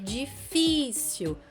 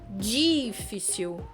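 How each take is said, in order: First: The stress is on the middle syllable. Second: The stress is not on the middle syllable. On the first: The speaker calls it right. "a pronúncia dessa palavra é difícil" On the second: The speaker calls it wrong. "e não difícil"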